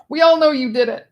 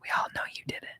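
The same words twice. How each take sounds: First: High, loud accusation; loud mock accusation. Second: Conspiratorial whisper; secretive whispered accusation. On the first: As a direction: call it out for everyone. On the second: Pretend.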